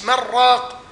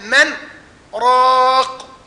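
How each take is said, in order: First: The two words run together without a break. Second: A brief silent pause separates the two words. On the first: The speaker calls it wrong. "مش من راق" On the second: The speaker calls it right. "لا، من راق"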